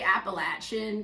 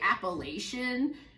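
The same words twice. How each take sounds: First: It is said the southern Appalachian way. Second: It is said the Maryland way.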